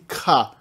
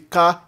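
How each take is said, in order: First: The k is followed by a puff of air. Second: The k is plain, with no puff of air. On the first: "a oclusiva aspirada" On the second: "a oclusiva simples"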